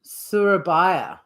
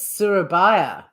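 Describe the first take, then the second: First: The middle consonant sounds like English Y. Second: The same.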